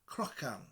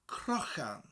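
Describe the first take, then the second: First: The middle consonant is a light K sound. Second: The middle consonant is a rasping throat sound. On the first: The speaker calls it wrong. "a light K sound would be okay for now" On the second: The speaker calls it right. "a ch sound in the back of your throat"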